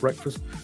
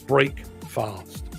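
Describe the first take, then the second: First: The first part sounds like 'breck', run together. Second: The first part sounds like 'brake', fully separate. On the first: "I could have gone with breakfast" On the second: "I pronounce it break fast"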